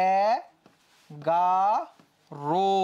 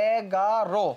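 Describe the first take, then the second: First: এ, গা, রো slowly drawn out with a closed o; spoken pronunciation. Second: এগারো read syllable by syllable as spelt; spelling pronunciation. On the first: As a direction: sound out এগারো in three long, separate syllables ending "ro". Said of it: "উচ্চারণটা হইতেছে এইরকম". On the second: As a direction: say এগারো as written, open o on the last syllable. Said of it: "এটা হচ্ছে বানান". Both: Shown as a demonstration.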